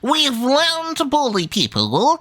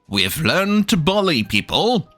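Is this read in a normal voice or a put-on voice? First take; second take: put-on; normal. First: It is read in a theatrical, put-on voice. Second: It is read in a plain, ordinary voice. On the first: The speaker calls it right. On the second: The speaker calls it wrong.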